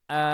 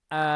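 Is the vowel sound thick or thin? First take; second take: thin; thin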